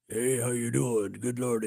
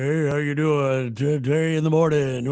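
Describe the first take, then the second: First: Put-on low, booming old-school DJ; radio DJ voice. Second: Radio DJ voice. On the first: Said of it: "all these guys had radio voices". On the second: Retold or imitated. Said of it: "I finally got this voice that would go".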